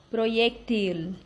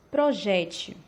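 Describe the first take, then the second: First: Proyectil stressed on TIL; Spanish final stress. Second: Projétil stressed on JÉ; Portuguese middle stress. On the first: Teacher reading the Spanish example, proyectil stressed on TIL. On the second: Teacher giving the Portuguese translation, projétil stressed on JÉ. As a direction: say projétil with weight on JÉ, light ending. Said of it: "Português". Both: Shown as a demonstration.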